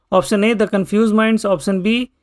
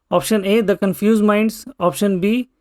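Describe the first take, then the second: Both takes have the same delivery.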